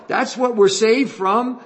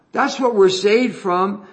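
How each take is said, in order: First: Saved lifted high and held, slowly, with a rising end; stress on saved. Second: "what" is the peak, said slowly with a rising end; stress on what. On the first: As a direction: lean hard on "saved" and let the line rise. Repeats the line, stressing saved. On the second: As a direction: lean on "what" and let "saved" drop back. Repeats the line, stressing what. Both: Acted.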